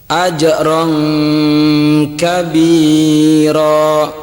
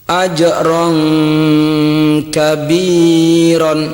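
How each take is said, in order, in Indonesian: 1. Kata terakhir berakhir pada vokal biasa. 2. Kata terakhir berakhir dengan bunyi 'n'.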